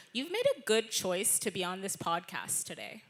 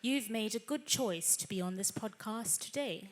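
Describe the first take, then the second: First: Californian American accent; relaxed California American accent. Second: Posh Queen's English RP accent. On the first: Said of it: "the American one would be". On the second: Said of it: "R P would be". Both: Shown as a demonstration.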